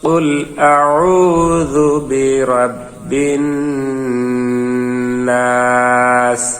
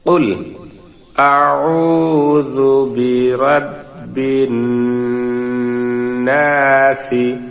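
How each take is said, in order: First: The last word ends on a bare s sound. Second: The last word ends with a short i vowel. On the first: The reading stops here. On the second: The reading continues on.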